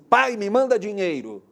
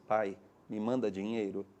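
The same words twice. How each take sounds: First: It is said in a harsh, demanding tone. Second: It is said in a gentle, pleading tone.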